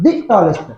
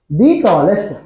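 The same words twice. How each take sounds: First: The word 'the' has a short vowel. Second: The word 'the' has a long vowel. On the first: The speaker calls it wrong. "not the tallest" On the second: The speaker calls it right. "taken long vowel sound"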